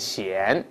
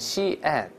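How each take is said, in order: First: The name is run together into one syllable. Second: The name is split into two separate syllables. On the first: The speaker calls it wrong. "不要读成险" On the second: The speaker calls it right. "要读成西岸，把它分开就好了"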